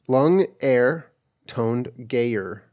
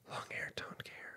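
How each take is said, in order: First: It is spoken in a normal voice. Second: It is whispered.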